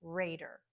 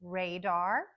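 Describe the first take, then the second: First: Raider softer, with a reduced der; RAY-der, weak falling end; unstressed ending contrast. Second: Radar with full DAR, tune rising; RAY-DAR, second vowel open and unreduced; secondary stress contrast. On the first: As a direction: let the second syllable of raider drop away. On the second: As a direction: keep both syllables of radar clear. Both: Shown as a demonstration. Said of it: "hear the difference between".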